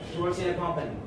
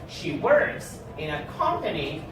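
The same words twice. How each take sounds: First: The sentence is said quickly. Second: The sentence is said slowly. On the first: The speaker calls it wrong. "Don't say" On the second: The speaker calls it right. "speak silently or slowly ... if you read it like this"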